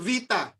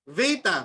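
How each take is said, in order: First: It begins with a V sound and ends 'ita'. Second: It begins with a B sound and ends 'eta'. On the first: This is the modern Greek pronunciation. "Sa modern Greek, mga kapatid, ang bigkas dyan" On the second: This is the Erasmian pronunciation. "sa Erasmian"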